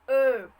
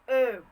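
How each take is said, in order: Both takes have the same delivery.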